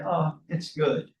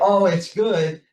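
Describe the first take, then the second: First: It is said flatly, without enthusiasm. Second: It is said with real enthusiasm.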